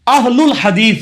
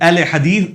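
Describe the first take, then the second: First: The first word ends in an 'ul' sound. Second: The first word ends in an 'e' sound. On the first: The speaker calls it right. "अहलुल हदीस होगा जबर के साथ होगा" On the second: The speaker calls it wrong. "अहले हदीस तो गलत लफ्ज है"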